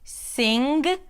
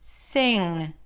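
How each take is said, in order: First: A hard g sound is popped at the end. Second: The ng sound is held and fades out. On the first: The speaker calls it wrong. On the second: The speaker calls it right. "stretch and hold out the N G sound and then fade it out"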